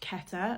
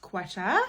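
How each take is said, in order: First: It begins with a plain k sound. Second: It begins with a kw sound. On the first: This is how her own name is said. The speaker calls it right. "My name is pronounced Keta" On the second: This is how the city's name is said. The speaker calls it wrong. "not Quetta"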